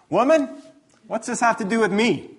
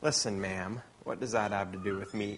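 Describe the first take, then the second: First: A sharp, loud, higher "Woman" that brushes her off; rude retort. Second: Soft, quiet, polite "Listen, ma'am"; gentle "ma'am". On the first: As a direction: snap it back at his mother, rudely. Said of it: "it comes off as a little bit rude". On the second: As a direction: say "ma'am" kindly, without any edge. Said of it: "I guess would be the best way we'd say it". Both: Retold or imitated.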